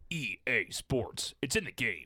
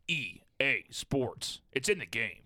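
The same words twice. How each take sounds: First: It is said at a quicker pace. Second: It is said more slowly.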